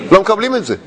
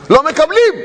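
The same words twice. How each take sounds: First: Said in the usual way. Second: Emphatic shout. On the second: Acted. Preacher repeats a claim.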